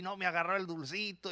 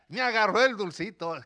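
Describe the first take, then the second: First: Put-on softer, sniffly sulking child; a hint of a heartbroken boy whining; mild mock sob of a rejected little boy; crying little boy. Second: Put-on bright delighted child's cry; a hint of a boy thrilled she took it; lightly voiced overjoyed little boy; happy little boy. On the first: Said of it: "Él llora y". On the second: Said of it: "Y el niño feliz".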